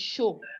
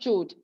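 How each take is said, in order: First: The word begins with a sh sound. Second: The word begins with a ch sound. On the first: The speaker calls it right. "It's show" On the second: The speaker calls it wrong. "So it's not chode"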